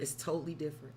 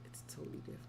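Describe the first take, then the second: First: Said in the usual way. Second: Whispered aside. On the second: Shown as a demonstration. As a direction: whisper it like a secret. Repeats phrase, second whispered.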